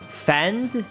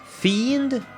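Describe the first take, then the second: First: The vowel is short, like in 'fender'. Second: The vowel is long, like in 'fee'. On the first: "You pronounce it fend? Like fender?" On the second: "Like I got a fee, and then I ended with an N D?"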